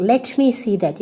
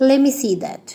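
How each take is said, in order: First: Said in the usual way. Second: "Let me" slurred into lemme; shortened form. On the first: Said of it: "Instead of telling". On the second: Shown as a demonstration. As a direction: drop the t in "Let me". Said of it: "you can say".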